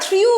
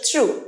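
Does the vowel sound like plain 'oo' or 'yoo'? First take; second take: yoo; oo. First: The vowel has a 'y' glide, like 'yoo'. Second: The vowel is a plain 'oo' sound. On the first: The speaker calls it wrong. "আমরা থ্রিউ বলি, থ্রিউ is the wrong pronunciation" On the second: The speaker calls it right.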